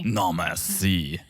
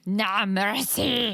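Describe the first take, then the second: First: Merci said slow as mair-see, stress on no; slow, careful French no merci; lightly French-accented correction. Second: Mercy said slow and drawn out; half-hearted French accent; mock French no merci. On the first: Shown as a demonstration. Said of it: "I'm telling Teresa I'm very good". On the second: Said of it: "we were saying".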